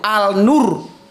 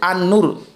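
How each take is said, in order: First: The article keeps a clear l sound. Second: The l blends into the following n sound. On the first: The speaker calls it wrong. "nggak ada itu al nur" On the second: The speaker calls it right. "yang ada itu an nur"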